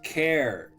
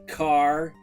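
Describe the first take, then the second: First: It starts with k and rhymes with air. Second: It starts with k and rhymes with far. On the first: "others say it as care" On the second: "Some say it as car"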